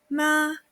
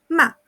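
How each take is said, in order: First: The pitch stays high and level. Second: The pitch falls sharply and briefly. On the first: It means mother. "Con primer tono" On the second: It means to scold. "Cuarto ejemplo"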